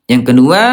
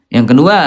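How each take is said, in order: The two takes are said the same way.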